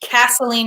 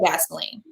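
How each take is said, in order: First: The word begins with a voiceless K sound. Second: The word begins with a voiced G sound. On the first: "change the G in gasoline to a K" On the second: "rather than gasoline"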